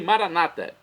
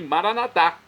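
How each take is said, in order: First: The stress falls before the last syllable. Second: The stress falls on the last syllable. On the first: This is how Protestants say it. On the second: This is how Catholics say it.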